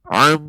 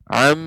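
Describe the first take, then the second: First: The sound is muffled with the nose pinched shut. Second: The sound resonates freely through the open nose. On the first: "Manakala kita pencet hidung kita, dia nggak akan keluar dengan sempurna" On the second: "ini keluar dari dari hidung"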